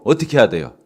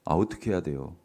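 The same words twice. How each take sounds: First: Prompting question. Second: Softer, asking the congregation again; a gentle nudge for an answer; coaxing repeat of the question. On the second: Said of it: "아이고, 안 들려". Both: Shown as a demonstration.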